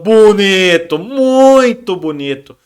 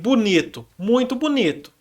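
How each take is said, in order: First: It is said in a sarcastic, ironic tone. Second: It is said in a flat, neutral tone. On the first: "Eu estou sendo irônico" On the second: "eu estou usando uma entonação vocal neutra"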